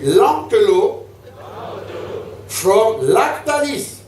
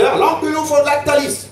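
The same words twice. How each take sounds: First: It is said at a normal speed. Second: It is said a little faster.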